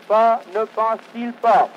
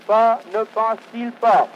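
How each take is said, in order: Both takes have the same delivery.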